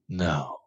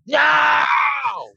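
First: The word is said calmly and quietly. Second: The word is said loudly, like a scream.

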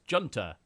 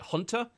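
First: The word begins with a J sound. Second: The word begins with an H sound. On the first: The speaker calls it wrong. "if you read it off, you'd probably just say" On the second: The speaker calls it right. "How do you pronounce this correctly?"

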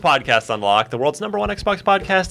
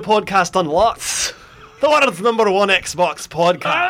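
First: It is said in a plain normal voice. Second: It is said in a put-on Irish accent.

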